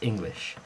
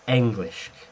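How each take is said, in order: First: The word begins with an 'i' vowel sound. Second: The word begins with an 'e' vowel sound. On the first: The speaker calls it wrong. "It's never pronounced English" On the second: The speaker calls it right. "It's not an I sound, it's an, an, an E sound"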